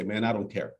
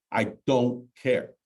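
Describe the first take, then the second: First: Said in the usual way. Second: "I don't care" slowed, weight on "don't"; dismissive repeat. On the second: Retold or imitated. Fed-up homeowner brushing off the agent, slow stress on "don't". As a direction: drag out "I don't care" and lean on "don't". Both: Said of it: "some people that say".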